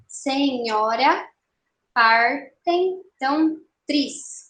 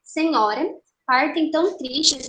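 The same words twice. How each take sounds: First: "Senhora, partem tão tris" very slowly, syllable by syllable; escansão silábica. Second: Said in the usual way. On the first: Shown as a demonstration. ("Senhora, partem tão tris" bem devagar, sílaba por sílaba) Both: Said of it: "Bom, primeiro verso".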